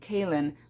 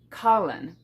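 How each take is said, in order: First: The name sounds like Kaylin. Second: The name sounds like Kahlan, as spelled. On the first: This is how the TV show says it. "I believe her name is pronounced Kaylin" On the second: This is how it is read from the spelling. "I pronounced it Kahlan because that's how it's spelled"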